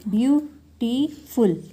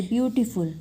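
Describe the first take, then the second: First: "beautiful" very slowly in three parts; syllable by syllable. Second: Said in the usual way. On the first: Shown as a demonstration. Teacher counting a word's syllables, slow and separated. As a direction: stretch out "beautiful" as view, टी, फुल with gaps. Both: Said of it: "तीन syllable हो गए".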